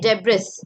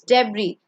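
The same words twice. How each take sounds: First: An S sound is heard at the end. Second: No S sound is heard at the end. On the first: The speaker calls it wrong. "You don't say debris" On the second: The speaker calls it right. "S is silent"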